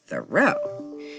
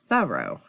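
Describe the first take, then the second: First: It is said the usual local way. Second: It is said the New England way. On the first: This is how people say it down here. The speaker calls it wrong. "we don't say it correctly down here. We always say" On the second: This is how people say it up north. The speaker calls it right. "the tour guide helped me pronounce it as"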